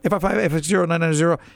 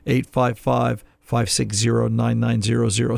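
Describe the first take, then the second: First: The number is said fast. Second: The number is said slowly.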